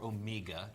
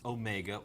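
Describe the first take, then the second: First: The name is said the British way. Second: The name is said the American way.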